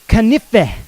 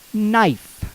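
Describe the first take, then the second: First: The k at the start is sounded aloud. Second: The k at the start is silent. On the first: This is the older pronunciation. "In Old English, this word would actually have been pronounced canife" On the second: This is the later pronunciation. "In Old Modern, it came to be pronounced knife"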